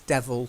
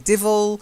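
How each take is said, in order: First: The first vowel sounds like 'eh'. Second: The first vowel sounds like 'ih'. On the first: This is the standard pronunciation. The speaker calls it right. "The correct phonetic pronunciation is devil" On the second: This is a non-standard pronunciation. The speaker calls it wrong. "But you do hear people say divil"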